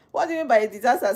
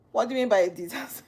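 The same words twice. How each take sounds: First: Incredulous laughing repeat of the question; laughing disbelief. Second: Said in the usual way. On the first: Real, not acted. Streamer laughing at a viewer's comment, fast and incredulous. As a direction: laugh it out fast, higher and louder.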